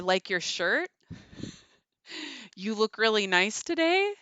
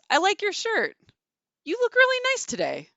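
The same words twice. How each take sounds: First: The pitch rises at the end. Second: The pitch falls at the end. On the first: The speaker sounds hesitant. "Going up at the end communicates hesitancy" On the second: The speaker sounds decisive. "going down, you know, communicates decisiveness"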